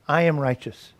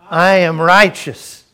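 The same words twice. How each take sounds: First: It is said plainly, without excitement. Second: It is said with conviction and excitement.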